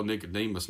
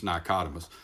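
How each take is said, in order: First: Said in the usual way. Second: Nicodemus said another man's mistaken way; mispronounced Nicodemus. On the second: Retold or imitated. Preacher quoting Brother Jim's slip, Nicodemus mispronounced. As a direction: say Nicodemus with the wrong vowels and stress. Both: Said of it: "Brother Jim used to call Nicodemus".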